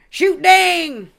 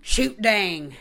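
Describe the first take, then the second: First: "Shoot dang" in a full hick twang, much higher and louder. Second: A light country drawl on "Shoot dang", voice barely changed; half-hearted hick twang, said almost in her own voice. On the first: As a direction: belt it out like a loud country hick. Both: Retold or imitated. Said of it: "that weird fucking hick voice".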